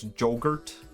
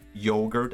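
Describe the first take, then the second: First: The word begins with a 'j' sound. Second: The word begins with a 'y' sound.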